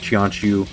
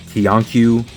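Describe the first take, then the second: First: The Q is said as a ch sound. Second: The Q is said as a hard k sound.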